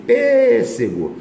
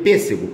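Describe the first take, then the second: First: "pêssego" with PÊ high, loud and very long; stress on first syllable. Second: Said in the usual way. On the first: Shown as a demonstration. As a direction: stretch and punch the PÊ in "pêssego". ("pêssego" com o PÊ bem alto e esticado) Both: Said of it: "proparoxítona".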